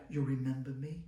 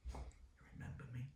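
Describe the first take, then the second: First: Said in the usual way. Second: Whispered, much softer; a hushed whispered you remember me. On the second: Retold or imitated. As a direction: breathe the question almost unvoiced. Retelling the teacher reunion question.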